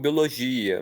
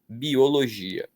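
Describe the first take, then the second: First: The vowels are run together quickly. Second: The vowels are said separately and slowly. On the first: The speaker calls it wrong. "Existem pessoas até que falam biologia" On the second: The speaker calls it right. "o correto é falar pausadamente"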